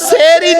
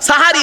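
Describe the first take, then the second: First: The first syllable has an e vowel. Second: The first syllable has an a vowel. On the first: The speaker calls it wrong. "শব্দটা সেহরি নয়" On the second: The speaker calls it right. "দন্তেশয় আকার"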